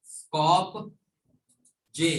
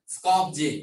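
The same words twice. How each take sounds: First: Long pause between Skop and je; split Skopje. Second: Said in the usual way. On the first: Shown as a demonstration. Teacher drills Macedonia's capital, Skopje broken in two. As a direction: hang on a rising Skop, then add je.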